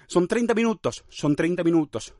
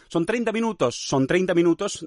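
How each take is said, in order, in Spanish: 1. Un hueco separa 'minutos' de 'son'. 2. Una sola s une 'minutos' directamente con 'son'. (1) "Es dejar ahí un hueco" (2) "Ahí es usar la S del minutos para hacer la S del son"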